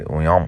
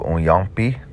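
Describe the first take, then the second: First: The final vowel is dropped, ending on a consonant. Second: The word is said in full with its final vowel. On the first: "They'll swallow it" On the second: "Instead of uyampi"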